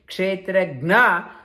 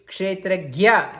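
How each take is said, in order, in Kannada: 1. kshetra ನಂತರದ ಸಂಯುಕ್ತ ಅಕ್ಷರ 'gn' ರೀತಿ ಕೇಳಿಸುತ್ತದೆ. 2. kshetra ನಂತರದ ಸಂಯುಕ್ತ ಅಕ್ಷರ 'gy' ರೀತಿ ಕೇಳಿಸುತ್ತದೆ. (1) "they say kshetragna" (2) "We should pronounce properly"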